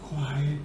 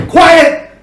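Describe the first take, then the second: First: Very low, barely voiced request; soft hushed quiet. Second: High, sharp shout; emphatic loud command. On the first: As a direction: murmur it gently, far softer. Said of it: "a totally different meaning". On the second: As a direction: shout it as an order. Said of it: "you change it with your voice". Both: Shown as a demonstration.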